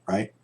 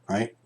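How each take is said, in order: No difference in how they are said.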